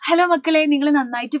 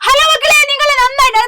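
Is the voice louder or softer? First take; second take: softer; louder. First: It is spoken at a normal, softer volume. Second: It is spoken at a clearly louder volume.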